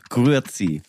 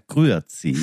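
First: It is said in a sharper, pointed accent. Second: It is said in a Basel accent.

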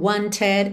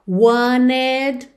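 First: The middle T is clearly pronounced. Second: The T is dropped, American style.

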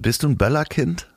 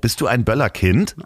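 First: The voice stays level at the end. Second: The voice rises high at the end.

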